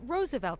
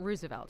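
First: The first syllable sounds like 'rose'. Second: The first syllable sounds like 'roos'. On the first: The speaker calls it right. "It's Roosevelt" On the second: The speaker calls it wrong. "It's not Roosevelt"

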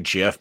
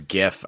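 First: The word starts with a soft J sound. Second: The word starts with a hard G sound. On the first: The speaker calls it wrong. "I always pronounce it like it's a J" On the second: The speaker calls it right. "but I know it's GIF. ... It's a G"

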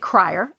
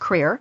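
First: The name is said with a 'cry' vowel. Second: The name is said with a 'cree' vowel. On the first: The speaker calls it wrong. "a lot of people mispronounce my last name. They say Crier" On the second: The speaker calls it right. "it's actually pronounced Creer"

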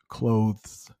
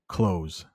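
First: The word has a TH sound before the final S. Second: The word has an S sound instead of TH. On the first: "Not easy" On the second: "let's just make it an S"

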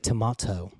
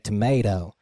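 First: It is said with a British accent. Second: It is said with an American accent. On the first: "in Britain, they might say tomato" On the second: "in the U.S., we say tomato"

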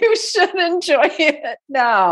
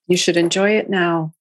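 First: It is said emphatically, with conviction. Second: It is said flatly, without conviction.

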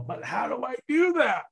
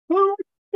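First: It is said in his normal voice. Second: It is said in a silly put-on voice.

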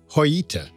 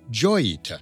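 First: The name is said the Spanish way. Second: The name is said in a non-Spanish way. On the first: This is the owner's original name for the ship. The speaker calls it right. "original name for the vessel was pronounced Joyita, which is grammatically correct in Spanish" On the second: This is the form that became common after the ship became famous. The speaker calls it wrong. "mispronounced as Joyita"

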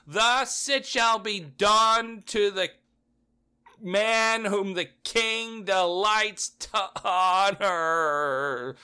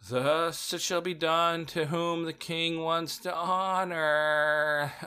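First: It is said loudly and clearly. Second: It is said quietly and reluctantly.

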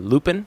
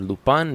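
First: The name is said with an English accent. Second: The name is said with a French accent.

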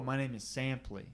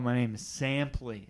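First: It is said at a normal volume. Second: It is said loudly with careful enunciation.

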